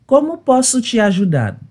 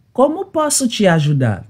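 Both takes have the same delivery.

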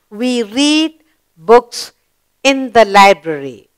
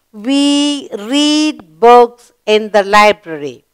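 First: Very slow, deliberate reading; slow read-aloud. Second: Slow, clear model reading; slow read-aloud. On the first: Teacher rereading the sentence to pupils, very slowly. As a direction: stretch it out word by word. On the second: Teacher reading the finished sentence to pupils, slowly. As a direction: say each word slowly for the class. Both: Shown as a demonstration. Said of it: "we completed the sentence".

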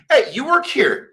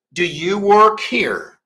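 First: "Hey, you work here?" with a high lifted Hey, relaxed; casual question. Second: Slow careful question with auxiliary; "Do you work here?" spelled out slowly, each word clear; full question form. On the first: Teacher showing the casual spoken question. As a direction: drop the auxiliary, just say it casually. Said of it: "eu só vou falar assim". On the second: Teacher contrasting full question, slow and deliberate. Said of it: "em vez de eu te dizer". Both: Shown as a demonstration.

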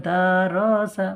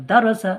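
First: দারসা with long, stretched vowels; drawn-out wrong reading. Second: দারসা said quickly with short vowels; quick, unstretched reading. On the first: Teacher showing a wrong reading, drawn-out দারসা. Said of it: "ভুল". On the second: Teacher correcting the reading, quick দারসা without stretching. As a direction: keep দারসা short and even. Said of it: "দারসা পড়বেন না". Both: Shown as a demonstration.

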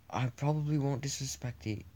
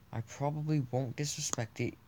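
No difference in how they are said.

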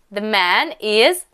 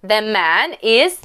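The two takes are said the same way.

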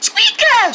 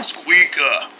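First: High squeaky cry; high squeak. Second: Low, deep answer; low growl. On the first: Pretend gum ad, squeaky high call. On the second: Pretend gum ad, deep low echo. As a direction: drop it way down low. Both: Pretend.

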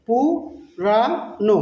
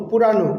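First: Very slow "পু - রা - নো"; three separate beats on "পুরানো", gaps between; broken into syllables. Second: Said in the usual way. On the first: Shown as a demonstration. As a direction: sound out "পুরানো" syllable by syllable, slowly. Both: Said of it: "নেপালিতে বলবো".

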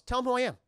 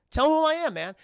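First: Higher, louder push to be named; a raised first demand, before the full shout; insistent demand. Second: Much higher and louder, shouting it; the same demand now bellowed; shouted demand. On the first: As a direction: demand they say his name. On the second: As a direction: yell it across the throne room. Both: Retold or imitated. Killmonger demanding, building up.

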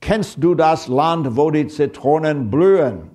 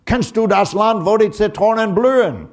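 First: Quoting the German line slowly and a bit higher, carefully; careful German poem recital. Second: Mock German officer barking "Kennst du das Land" much higher and louder; hammed-up German officer shouting in a thick German accent; heavy German accent shout. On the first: Shown as a demonstration. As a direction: recite "Kennst du das Land" slowly like a school poem. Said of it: "the line of German poetry goes". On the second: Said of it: "shout in, in heavy-duty, uh, a German accent".

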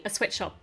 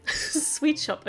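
First: "sweatshop" with a short e in the first word; slip of the tongue. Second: "Sweet shop" with a long ee; laugh, then correct it to "Sweet shop", stressing Sweet; laughing self-correction. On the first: Toy reviewer misnaming the shop, saying "sweatshop" with a short e. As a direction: mispronounce it as "sweatshop", lower and softer. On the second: Toy reviewer fixing her slip, "Sweet shop" with a long ee. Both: Real, not acted. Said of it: "Sweet shop, okay".

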